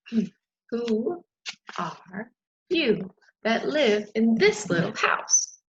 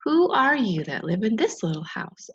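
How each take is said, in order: First: Slow. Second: Said in the usual way. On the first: Acted. Butterfly asks slowly.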